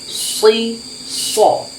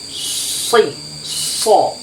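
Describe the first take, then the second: The two takes are said the same way.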